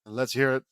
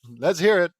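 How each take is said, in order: First: Said in the usual way. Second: Raised, higher and emphatic; louder retake. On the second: Acted. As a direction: give the line a louder, livelier push. Redoes the line with more energy.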